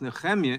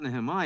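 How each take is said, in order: First: The name is said with a Hebrew pronunciation. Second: The name is said with an English pronunciation. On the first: The speaker calls it right. "it's Nehemiah in the original Hebrew" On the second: The speaker calls it wrong. "the proper pronunciation is not Nehemiah"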